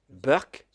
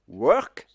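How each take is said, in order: First: It begins with a B sound, Indian English. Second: It begins with a W sound, standard English.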